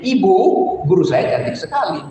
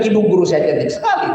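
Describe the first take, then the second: First: There is a pause after the first word. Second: It runs on with no pause after the first word.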